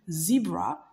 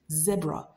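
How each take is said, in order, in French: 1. Il est prononcé avec un accent américain. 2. Il est prononcé avec un accent britannique. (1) "qui se dit zebra en américain" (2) "anglais britannique avec l'accent britannique, ça se dit zebra"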